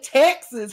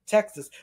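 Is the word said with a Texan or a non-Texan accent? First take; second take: Texan; non-Texan. First: It is said with a Texan accent. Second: It is said with a non-Texan, DC-consultant accent.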